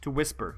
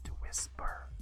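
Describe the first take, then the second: First: It is said in a normal voice. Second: It is said in a whisper.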